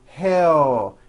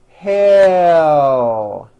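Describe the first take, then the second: First: The final L is weak, with the mouth closing. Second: The final L is clear, with the tongue raised. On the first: The speaker calls it wrong. "See how my mouth is closing? ... That produces a weak L" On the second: The speaker calls it right. "Your jaw should not be moving at all. Let your tongue rise up"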